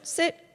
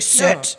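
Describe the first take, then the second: First: The word sounds calm and confident. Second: The word sounds harsh and intimidating. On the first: The speaker expects the dog to obey. The speaker calls it right. "Say it with confidence" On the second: The speaker is trying to scare the dog into obeying. The speaker calls it wrong. "you don't need to be like intimidating"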